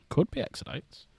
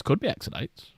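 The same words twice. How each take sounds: First: A conspiratorial hushed repeat; whispered aside. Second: Said in the usual way. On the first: Pretend. Streamer whispering a guess about the diorama.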